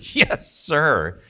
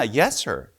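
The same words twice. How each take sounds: First: It is said in a mocking, sarcastic tone. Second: It is said in a sincere, respectful tone. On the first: The speaker is mocking the listener. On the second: The speaker shows genuine respect. "You're being respectful"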